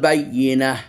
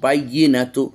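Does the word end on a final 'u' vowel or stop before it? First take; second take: stops; u vowel. First: The word stops without the final vowel. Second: The word ends with a final 'u' vowel. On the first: "ওয়াকফ করলাম এই জন্য এই পেশ পড়লাম না" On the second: "তা পেশ তু"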